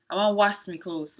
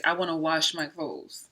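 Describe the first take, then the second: First: "wash me clothes" in Sierra Leone Krio; Krio accent. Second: Said in the usual way. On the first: Shown as a demonstration. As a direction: speak the line in Krio. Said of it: "we'll say".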